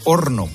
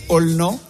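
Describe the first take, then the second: First: The consonant before the n is an R sound. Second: The consonant before the n is an L sound. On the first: "Y dice horno" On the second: "la R se convierte en L"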